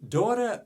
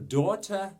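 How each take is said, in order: First: The word is said in a non-British accent. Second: The word is said in a British accent.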